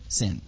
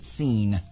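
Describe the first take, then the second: First: The name is said in an anglicized way. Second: The name is said in a non-anglicized way. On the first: "it's been anglicized, and so we say it Sin" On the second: "we could even pronounce it Sin"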